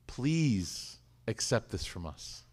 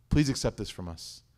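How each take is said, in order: First: Slow, soft, humble prayer; humble plea. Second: Said in the usual way. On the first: Acted. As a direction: ask it gently, like a whispered dua. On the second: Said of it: "They just said".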